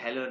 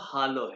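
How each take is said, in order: First: The first vowel is an 'eh' sound. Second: The first vowel is an open 'ah' sound. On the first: The speaker calls it wrong. "इसलिए हेलो नहीं है" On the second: The speaker calls it right. "आ है इसलिए वो हालो है"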